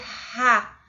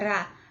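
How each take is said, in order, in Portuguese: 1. A consoante é um som seco e áspero da garganta. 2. A consoante é um r suave e leve. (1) "Ele nunca vai ser ra, ra. Esse som seco fica para o som da letra J" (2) "aqui a gente tem um exemplo do R em espanhol mesmo"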